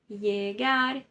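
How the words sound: The double L sounds like a y. This is the Spanish accent. "na Espanha, eles leem isso como se fosse uma letra I"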